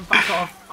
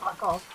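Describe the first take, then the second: First: Shouting. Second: Said in the usual way. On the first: Real, not acted. Yelling at his champion.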